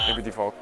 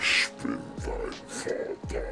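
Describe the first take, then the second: First: It is said in a plain, ordinary voice. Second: It is said in a dramatic Darth Vader voice.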